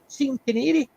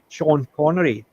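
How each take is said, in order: First: The name is pronounced letter by letter. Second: The name gets its usual pronunciation. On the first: "she would literally pronounce them as they were spelt" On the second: "instead of saying Sean Connery"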